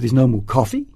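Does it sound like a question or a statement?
question. It is said as a questioning rise.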